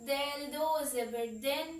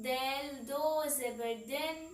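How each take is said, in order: The two takes are said the same way.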